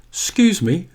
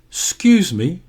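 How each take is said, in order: First: The first syllable of excuse is squeezed short. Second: The same.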